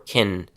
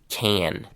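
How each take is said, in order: First: The word has a short, weak vowel. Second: The word has a full, open vowel.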